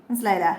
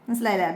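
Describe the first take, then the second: Both takes have the same delivery.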